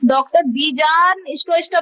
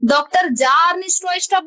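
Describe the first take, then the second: First: The first name begins with a B sound. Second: The first name begins without a B sound. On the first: "बी जार स्ट्रॉस्ट्रप बोलेगा तो भी सही है" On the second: "बी को silent करके"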